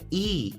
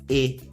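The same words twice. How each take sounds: First: The letter is said with an 'ee' vowel. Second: The letter is said with an 'eh' vowel. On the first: This is how the letter is named in English. "Quando a gente fala ela em inglês, a primeira letra é E" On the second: This is how the letter is named in Portuguese. "mas em português é E"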